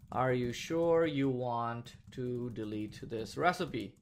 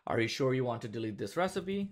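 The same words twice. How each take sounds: First: Dictating. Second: Said in the usual way. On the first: Shown as a demonstration. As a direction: spell it out as you type it. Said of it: "So confirm colon within quotes". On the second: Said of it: "I want this JavaScript little pop-up to show up that says".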